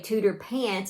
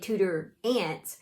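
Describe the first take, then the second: First: The second word begins with a p sound. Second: The second word begins with a vowel sound. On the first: "the H be silent" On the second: "the P H be silent"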